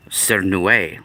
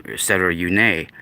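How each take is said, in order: First: "Cernue" as SAIR-noo-ay; first pronunciation. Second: "Cerune" as SETTER-oo-nay; alternative pronunciation. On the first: Vlogger introducing an ancient word to viewers, "Cernue" said SAIR-noo-ay. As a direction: say "Cernue" with an S start and an AY ending. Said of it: "different ways to pronounce the word". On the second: Vlogger offering viewers another version, "Cerune" said SETTER-oo-nay. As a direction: say "Cerune" with an extra syllable, ending in NAY. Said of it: "or Cernu". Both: Shown as a demonstration.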